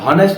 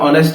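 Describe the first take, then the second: First: The word starts with a clear h sound. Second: The word starts with a vowel, no h sound. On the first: The speaker calls it wrong. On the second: The speaker calls it right.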